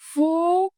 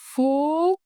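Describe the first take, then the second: Both takes have the same delivery.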